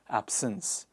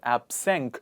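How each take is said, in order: First: The word ends with an S sound. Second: The word ends with a K sound. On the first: The speaker calls it right. "it is S" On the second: The speaker calls it wrong. "I'm afraid it's not absenk"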